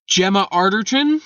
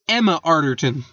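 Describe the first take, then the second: First: The first name begins with a G sound. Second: The first name begins with a vowel.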